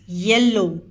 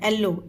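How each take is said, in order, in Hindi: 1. यह शब्द य की ध्वनि से शुरू होता है। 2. यह शब्द सादे स्वर से शुरू होता है। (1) "इट्स येल्लो" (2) "कई लोग येलो को एल्लो पढ़ते हैं"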